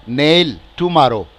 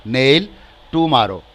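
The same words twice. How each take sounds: The two takes are said the same way.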